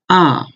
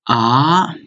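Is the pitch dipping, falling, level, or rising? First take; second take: falling; rising. First: The pitch falls sharply from high to low. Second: The pitch rises from lower to higher. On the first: "The fourth one is ah" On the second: "Second one is ah"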